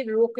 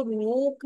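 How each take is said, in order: First: रुक with a short, quick u; brief u in रुक, not oo. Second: रुक stretched as "rook" with long oo; wrong take रुक, held oo. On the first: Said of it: "short ऊ का sound लिखेंगे". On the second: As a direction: draw out the vowel in रुक. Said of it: "long ऊ का sound नहीं लिखेंगे". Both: Shown as a demonstration.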